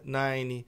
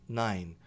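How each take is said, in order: First: It ends with an extra vowel after the N. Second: It ends cleanly on the N sound. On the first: The speaker calls it wrong. "o brasileiro tende a, falar, a pronunciar esse E" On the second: The speaker calls it right. "O som morre aqui no N"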